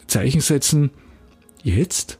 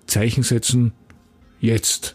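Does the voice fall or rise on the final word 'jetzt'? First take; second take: rise; fall. First: A pause, then the voice rises on jetzt. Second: Exclaimed, then the voice falls on jetzt. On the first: It asks whether to set punctuation now. "Zeichen setzen, 3 Punkte, jetzt, Fragezeichen" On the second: It urges setting punctuation now. "Zeichen setzen, Rufzeichen, jetzt"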